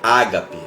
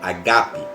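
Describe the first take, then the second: First: The stress is on the first syllable. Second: The stress is on the second syllable. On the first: The speaker calls it wrong. "no original mesmo a palavra não é ágape" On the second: The speaker calls it right. "Essa é a pronúncia correta, a acentuação está no G"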